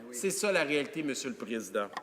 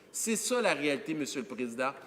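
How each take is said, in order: No difference in how they are said.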